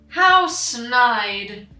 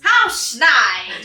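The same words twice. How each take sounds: First: It is read in the speaker's normal voice. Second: It is said in a put-on Yzma voice.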